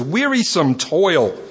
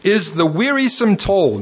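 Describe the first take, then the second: First: Wearisome toil drawn out slowly, wearisome stressed. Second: Wearisome leaned on, phrase falling; preacher hits wearisome in is the wearisome toil, then lets it fall; stress on wearisome toil. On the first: Preacher to church, repeating the phrase slowly and stressed. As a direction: slowly lay weight on wearisome. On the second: Preacher to church, stressing the key words. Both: Shown as a demonstration. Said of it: "Get these words".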